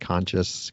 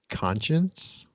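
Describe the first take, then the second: First: The word ends with a 'shus' sound. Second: The word ends with an 'ence' sound. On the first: The speaker calls it wrong. "usually comes out like conscious" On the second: The speaker calls it right. "did that very well"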